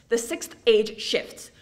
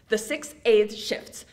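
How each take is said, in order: Both takes have the same delivery.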